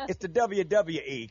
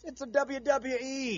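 First: "W W E" run together as dubya dubya ee; casual "W W E". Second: "W W E" slow, each "W" spelled out carefully; proper enunciation. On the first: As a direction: slur the letters, "dubya dubya ee". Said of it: "I say, Ray". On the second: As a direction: say every "W" slowly and fully as "double-u". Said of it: "do the little W thing". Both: Shown as a demonstration.

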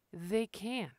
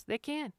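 First: They can. falling to a quiet close; quiet repeat. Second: They can. pitched high and firm; They can. said high with weight on can; emphatic insistence. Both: Shown as a demonstration. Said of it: "They can just stay on business".

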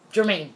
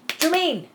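First: Said in the usual way. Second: Jermaine said much higher, with a falling end; stressed correction. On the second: Shown as a demonstration. Fixing the wrong name, Jermaine stressed high. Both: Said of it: "It's not Jerome".

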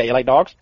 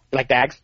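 First: Said in the usual way. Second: "dags" with a flat a like in bag; mock Southern "dags"; Southern drawl on dogs. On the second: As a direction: say "dags", vowel flattened to a.

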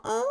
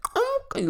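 First: Light, high-pitched polite toot; a gentle tap on the horn; nice little honk. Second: Loud, high held honk; full car honk. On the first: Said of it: "a nice little honk". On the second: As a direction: blare it out like a long horn. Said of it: "not a real ... a nice little honk". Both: Retold or imitated.

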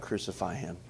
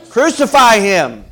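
First: Low, soft echo of a cry; hushed, lowered voice; subdued quote. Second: Loud, high, drawn-out shout; slow, full-voiced acted crowd shout; crowd's cry. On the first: Retold or imitated. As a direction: say the cry quietly, as a sober question. Same cry turned on the congregation. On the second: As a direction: cry out like a mob demanding a death. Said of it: "what were they crying?".

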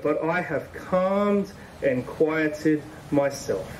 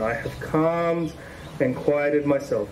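First: Slow, gentle scripture reading. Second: Slow, gentle, lingering on calmed; slow repeat. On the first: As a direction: let each word settle, slowly. Reading the psalm slowly. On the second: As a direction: savour the calm, slowly. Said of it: "There it is, being still again". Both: Shown as a demonstration.

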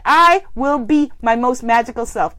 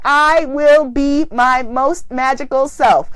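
First: Said in the usual way. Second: Slow, deliberate affirmation. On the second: Shown as a demonstration. Leading the group affirmation, slow and deliberate. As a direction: say it like a vow. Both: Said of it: "Let's affirm that".

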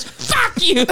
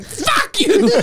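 First: A high, laughing fuck you; impersonating the man cursing at the news lady; high mock curse. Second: High laughing fuck you; the man snapping at the reporter, high; high mock curse. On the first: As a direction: squeak the curse at the reporter. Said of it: "He goes". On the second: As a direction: fling it out high and giddy. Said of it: "him going".

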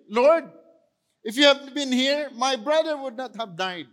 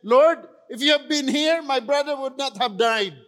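First: Mary's anguished plea. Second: Martha's anguished plea. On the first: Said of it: "Sinabi rin ni, ni Mary". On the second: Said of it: "she said". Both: Retold or imitated.

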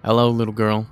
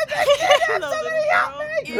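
First: Creepy greeting. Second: High, slow, creepy sing-song hello; mock the creepy greeting, drawn out. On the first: Acted. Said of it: "She screams". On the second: Player mocking Tarkus's creepy hello to the girl. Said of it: "Fucking creepy motherfucker".

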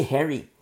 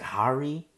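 First: "Harry" with the vowel of "hair"; own pronunciation. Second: "Hari" with an open "ah" in the first syllable; alternative pronunciation. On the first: Preacher admits his habit, "Harry" said like "hairy". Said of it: "I say Harry". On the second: Preacher guesses the proper way, "Hari" said with "ah". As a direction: say "Hari" as HAR-ee, like "hard". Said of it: "I'm pronouncing that wrong". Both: Shown as a demonstration.

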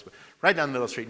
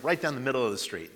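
First: Fast, punchy repeat with the stress on "right"; emphatic repeat. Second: Said in the usual way. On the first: Shown as a demonstration. Preacher to congregation, faster, stressing "right". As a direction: rush it, hitting "right" hard. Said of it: "repeats phrase faster, louder". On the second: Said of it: "repeats phrase, first take".

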